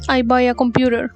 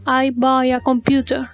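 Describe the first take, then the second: First: The T in computer sounds like a soft R. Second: The T in computer is a hard T. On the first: "American English in some cases sound like an R" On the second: "British English pronounces it as a hard T"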